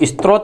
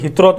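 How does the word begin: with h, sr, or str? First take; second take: str; h. First: The word begins with an s-t-r cluster. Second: The word begins with an h sound. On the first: Some people say it this way. "कुछ लोग इसको स्त्रोत भी बोलते हैं" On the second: This is the local village dialect form. "Bikaner के अंदर इसको ... हित्रोत भी बोलते हैं"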